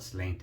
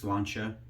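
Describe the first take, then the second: First: It is sounded out like English spelling. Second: It is said with its Irish pronunciation. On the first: The speaker calls it wrong. "that's how it phonetically reads" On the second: The speaker calls it right. "it's Irish, it's pronounced Sláinte"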